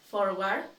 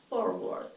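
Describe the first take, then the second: First: "Forward" with a tapped-off, questioning rise; incorrect pronunciation. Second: "forward" with English r's, falling at the end; correct pronunciation. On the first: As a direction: say "Forward" wrongly, ending on a rise. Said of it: "I will say each one incorrectly". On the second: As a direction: say "forward" correctly, ending on a fall. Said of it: "then I'll say it correctly". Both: Shown as a demonstration.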